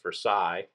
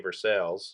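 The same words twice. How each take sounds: First: It is said with a French-style pronunciation. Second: It is said like English 'ver-sales'. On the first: It names the place in France. "Versailles in France" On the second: It names the town in Kentucky. "we say Versailles"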